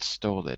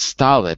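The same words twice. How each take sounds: First: The first vowel is not an 'ah' sound. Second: The first vowel is an open 'ah' sound. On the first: The speaker calls it wrong. "not stolid" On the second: The speaker calls it right. "it's stolid, ... it would still be an ah"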